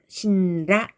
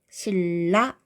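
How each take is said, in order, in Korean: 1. 첫 음절은 ㄴ 소리로 끝나요. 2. 첫 음절은 ㄹ 소리로 끝나요. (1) "신라 이렇게 발음하지 않고요" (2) "신라 이렇게 발음하죠"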